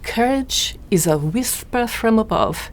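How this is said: It is said in an imitated foreign accent.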